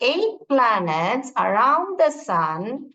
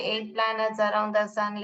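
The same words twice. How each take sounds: First: It is read with lively, expressive feeling. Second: It is read in a flat, expressionless way. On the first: The speaker calls it right. "भाव के साथ पोम पढ़नी चाहिए" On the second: The speaker calls it wrong. "ऐसा नहीं पढ़ोगे ... ऐसे नहीं"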